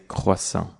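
It is said with a French pronunciation. "kind of the proper French pronunciation"

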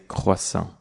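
It is said with a French pronunciation. "kind of the proper French pronunciation"

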